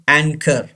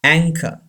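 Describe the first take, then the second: First: Anchor as "an-KER" with the final R pronounced; wrong, R sounded. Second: Anchor as "ANG-ka", no R at the end; anchor, stressed first, ending in "ka"; silent final R. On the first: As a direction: say anchor slowly, voicing the R at the end. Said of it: "It's wrong". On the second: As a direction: say anchor with CH as k and drop the R. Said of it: "R is not pronounced". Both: Shown as a demonstration.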